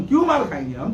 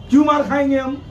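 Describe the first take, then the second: First: Said through a short, scornful laugh; bitter laugh. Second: Raised, a little louder and fierce; indignant question. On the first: Cleric scoffing at the crowd's advice, laughing bitterly. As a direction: laugh it off in disbelief. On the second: Cleric demanding why he should take a beating, raised and fierce. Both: Real, not acted.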